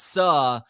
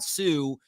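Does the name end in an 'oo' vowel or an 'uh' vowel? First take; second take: uh; oo. First: The name ends in a short 'uh' vowel. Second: The name ends in a long 'oo' vowel. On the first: "it looks like Suh" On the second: "It's not Sue"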